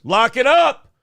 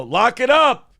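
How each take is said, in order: First: Loud shouted command; shouted order. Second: Sharp shouted command; shouted order. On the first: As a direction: bark it down the manhole. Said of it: "throws it down the manhole and goes". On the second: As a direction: yell it down the hole. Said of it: "and they go". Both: Retold or imitated.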